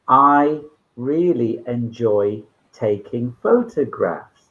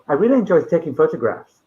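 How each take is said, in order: First: The sentence is spoken very slowly. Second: The sentence is spoken very quickly. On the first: "if you speak very slowly, it's too slow" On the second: "you're speaking more quickly than is natural"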